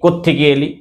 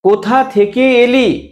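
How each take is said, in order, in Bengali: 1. প্রথম শব্দগুলো জুড়ে গিয়ে একটি ছোট শব্দ হয়ে যায়। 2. প্রতিটি শব্দ পুরোপুরি ও আলাদাভাবে বলা হয়।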